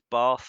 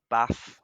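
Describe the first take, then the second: First: It is said with a southern English accent. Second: It is said with a northern English accent.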